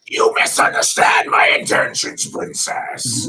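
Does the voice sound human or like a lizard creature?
lizard. It is said in a raspy lizard-creature voice. "lizard voice"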